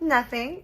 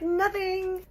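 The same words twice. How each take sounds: First: "Nothing." in a raised, coy sing-song that lifts at the end. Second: Put-on "Nothing." squeaked very high, girlish and teasing; extra coy nothing. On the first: Retold or imitated. Telling the cute Greek guy she said nothing, coy and raised. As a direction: play innocent on "Nothing.", pitched up with a teasing lift. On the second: Denying to the mohawk guy again, squeaky high and coy. Repeats denial more coyly.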